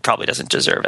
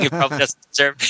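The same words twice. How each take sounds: First: Low whisper. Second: Said in the usual way. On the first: Shown as a demonstration. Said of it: "mental faculty that goes into saying". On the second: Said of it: "when he's saying".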